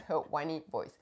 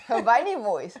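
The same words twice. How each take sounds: First: "whiny" said with a rounded w; careful w sound opening "whiny". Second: "whiny" said as "vainy", German-style; a slipped v for the w in "whiny". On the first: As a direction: start "whiny" with w, lower and softer. Corrected take of the word. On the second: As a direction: start "whiny" with a v sound. Repeats word, then corrects its sound. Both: Real, not acted.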